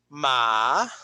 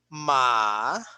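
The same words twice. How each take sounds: The two takes are said the same way.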